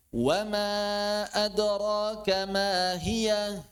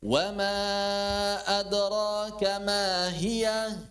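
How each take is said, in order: First: Slow recited question, pitch raised; questioning tune. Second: Slow, raised questioning recitation; questioning tune. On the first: Teacher demonstrating question intonation in a Quran verse. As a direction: chant it as a real question. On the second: Teacher repeating the verse as a question. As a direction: ask it as you recite. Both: Shown as a demonstration. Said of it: "jadi seperti bertanya".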